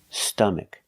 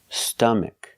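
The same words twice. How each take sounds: The two takes are said the same way.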